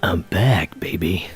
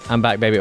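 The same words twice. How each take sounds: First: It is said in a seductive, sultry way. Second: It is said in an amped-up, energetic way.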